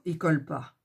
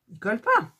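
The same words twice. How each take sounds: First: Said in the usual way. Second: A rising, stressed "Ils collent pas"; emphatic repeat. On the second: Real, not acted. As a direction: insist on it the second time, pushing "pas" up.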